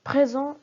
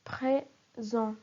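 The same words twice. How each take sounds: First: Said in the usual way. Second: "présent" broken as pré... sent; split into syllables. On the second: Shown as a demonstration. Teacher shows the following syllable, "présent" said syllable by syllable. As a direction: say "présent" in two syllables with a pause between. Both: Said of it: "La syllabe suivante est son".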